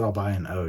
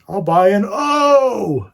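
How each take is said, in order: First: The phrase is said plainly, in an ordinary voice. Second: The phrase is said with exaggerated, drawn-out enunciation. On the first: "you could just said" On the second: "some of the ways that people like enunciate different um, letters"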